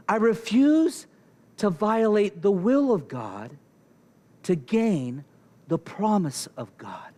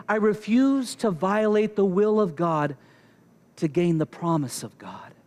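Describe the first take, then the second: First: "I refuse" raised, then a pause after each phrase; emphatic phrasing. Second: Said in the usual way. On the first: Shown as a demonstration. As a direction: break it deliberately after "refuse", "God" and "gain".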